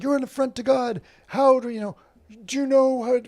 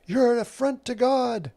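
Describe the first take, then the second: First: Higher, slightly louder imitated rant; hammed-up zealot yelling condemnation; mock screaming. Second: High, pinched mock yell at the drag person; mock screaming. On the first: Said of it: "just screaming these epithets". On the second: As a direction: imitate a zealot shouting, half-hearted. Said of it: "the person screaming at them".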